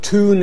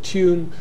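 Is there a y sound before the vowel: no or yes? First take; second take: no; yes. First: There is no y sound before the vowel. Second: There is a y sound before the vowel.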